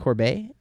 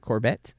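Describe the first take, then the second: First: The final T is silent. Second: The final T is clearly sounded.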